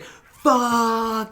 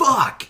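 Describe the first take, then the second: First: High, stretched mock cry; long drawn-out curse. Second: Short, high-pitched cry of dismay; one quick burst of mock frustration; mock exclaimed curse. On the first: Retelling the hero running with the kid, long drawn-out curse. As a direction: drag the one word out like a slow-motion yell. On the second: Retelling the hero seeing the kid fall, short high curse.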